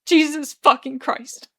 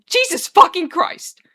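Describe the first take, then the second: First: Slow, higher-pitched tearful curse; whimper. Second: Slow, high, loud wail. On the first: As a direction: whimper it out, drawn slowly. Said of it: "Arthur whimpers". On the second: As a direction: wail it out in exasperated despair. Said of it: "Arthur wails again". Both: A narrator's reading.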